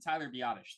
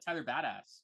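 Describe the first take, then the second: First: The surname sounds like 'bye-uh-tish', three syllables. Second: The surname sounds like 'badass', two syllables. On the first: The speaker calls it right. "Biotish is how you say it" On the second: The speaker calls it wrong. "I thought that's how you said it"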